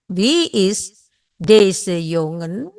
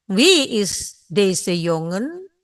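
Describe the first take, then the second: First: Even slower, drawn-out repeat. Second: Slow, careful Dutch question; slow model sentence. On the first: Teacher repeats the question even more slowly. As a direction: stretch each word for the class. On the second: Teacher slowly models the question for students. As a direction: say it slowly for learners to repeat. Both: Shown as a demonstration. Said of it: "Jongen adalah laki-laki".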